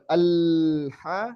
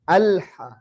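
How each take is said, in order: First: The l sound flows on at length. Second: The l sound is held only moderately. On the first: The speaker calls it wrong. "tidak juga ngalir" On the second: The speaker calls it right. "tapi dia secukupnya"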